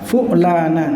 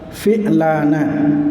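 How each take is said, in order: First: The first consonant is followed by a u vowel. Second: The first consonant is followed by an i vowel. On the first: "dengan dhammahnya fa" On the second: "dengan kasrohnya fa"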